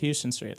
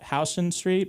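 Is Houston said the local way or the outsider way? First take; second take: outsider; local. First: Houston is said like the Texas city name. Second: Houston is given the local New York pronunciation. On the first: This is how people who go by the spelling say it. The speaker calls it wrong. "everyone's like, yeah, it's Houston Street. Like, no, it's not" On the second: This is how people from the city say it. The speaker calls it right. "only people from the city know how to pronounce the street"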